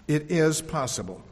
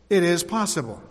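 First: "is" weighted, said softer; stress on IS. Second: "It" pushed forward, rest falling; stress on IT. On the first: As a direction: press "is" gently to confirm it. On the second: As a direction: lean on "It" to insist. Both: Acted. Repeated affirmation, stress shifting.

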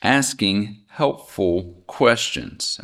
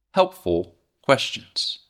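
First: "Asking helpful questions" said slowly, each word weighted; slow it right down and weigh helpful; slow emphasis. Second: Helpful said slow and leaned on; stress on helpful. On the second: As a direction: dwell on helpful, slowly. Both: Shown as a demonstration. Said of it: "And I emphasize".

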